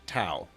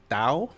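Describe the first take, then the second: First: It begins with a plain T sound. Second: It begins with a soft, D-like sound. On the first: The speaker calls it wrong. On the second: The speaker calls it right.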